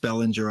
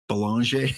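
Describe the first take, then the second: First: The name is pronounced the English way. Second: The name is pronounced the French way. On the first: The speaker calls it right. "it's Bellinger" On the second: The speaker calls it wrong. "we put the French pronunciation"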